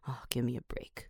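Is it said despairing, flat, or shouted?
flat. It is said flatly, with no expression.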